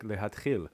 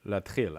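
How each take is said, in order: First: The word is said in full, three syllables. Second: The word is reduced to two syllables. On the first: The speaker calls it wrong. "I naively would have thought that that was like" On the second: The speaker calls it right. "instead it's like"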